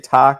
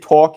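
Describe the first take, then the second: First: The word is said with a California-style vowel. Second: The word is said in a plain, ordinary way. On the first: This hints the person lived in California. "you say talk, like you say some shit real California-ish" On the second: This is the usual way of saying it. "you don't say talk"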